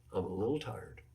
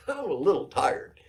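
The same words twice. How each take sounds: First: Softer, lower, sheepish mock whimper; a hint of a sheepish player asking for a break; meek little plea. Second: Louder, higher, laughing through the mock plea; mock plea broken by real laughter; laughing repeat. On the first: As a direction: play the timid player begging the coach. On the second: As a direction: crack up at the silly excuse.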